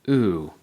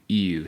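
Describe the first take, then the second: First: It is a pure 'oo' without a glide. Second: It starts with a y-glide, like 'you'. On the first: The speaker calls it right. "Make sure you're saying ooh" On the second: The speaker calls it wrong. "don't say ew"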